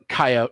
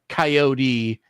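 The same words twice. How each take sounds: First: The word is said short and clipped. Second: The word is said long and drawn out. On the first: This is the proper way to say it. The speaker calls it right. "coyote is how people are supposed to say it" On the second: This is how many people around here say it. The speaker calls it wrong. "coyote is like the very long drawn out"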